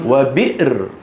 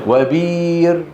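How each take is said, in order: First: The word has a glottal stop before the r. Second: The glottal stop becomes a long i sound.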